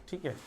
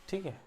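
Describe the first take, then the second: No difference in how they are said.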